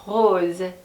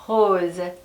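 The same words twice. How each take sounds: Both takes have the same delivery.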